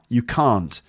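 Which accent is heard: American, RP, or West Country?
RP. It is said in a received pronunciation accent. "So, received pronunciation"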